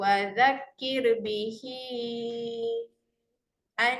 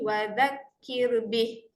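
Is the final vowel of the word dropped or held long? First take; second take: held long; dropped. First: The final vowel is held long into the next word. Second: The word ends on a bare h with no vowel. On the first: The reading continues into the next word. "Jadi kita baca wazakir bihi an" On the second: The reading stops at this word. "kalau berhenti ... matikan saja huruf ha tu"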